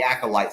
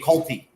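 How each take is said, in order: First: The word ends with an 'ite' sound. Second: The word ends with an 'ee' sound. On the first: The speaker calls it right. "it's actually called the acolyte" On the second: The speaker calls it wrong. "I could not pronounce the word correctly"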